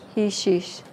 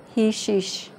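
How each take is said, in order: The two takes are said the same way.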